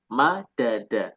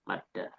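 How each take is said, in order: First: The two d sounds are separated by a vowel. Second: The two d sounds merge into one long d. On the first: The speaker calls it wrong. "Mengulang lagi mengucapkan setelah sebelumnya mengucapkannya" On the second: The speaker calls it right. "Kenapa kok harus digabungkan menjadi madda?"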